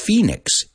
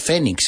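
First: The word is said with an English 'ee' vowel. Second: The word is said with non-English vowel sounds. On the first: The speaker calls it right. "es phoenix. E, phoenix" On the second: The speaker calls it wrong. "no es phoenix en inglés"

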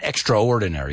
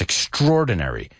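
First: The a and o vowels are said separately. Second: The a and o vowels blend together. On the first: The speaker calls it wrong. "It's not extraordinary" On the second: The speaker calls it right. "we mix those two vowel sounds, the A and the O"

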